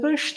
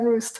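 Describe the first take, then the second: First: The name is said with a Swiss German pronunciation. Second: The name is said with an English pronunciation. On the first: "in Swiss German it's pronounced" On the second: "And in English"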